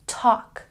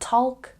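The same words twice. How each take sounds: First: The L is silent. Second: The L is sounded. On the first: The speaker calls it right. "the L is silent" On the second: The speaker calls it wrong. "not talk"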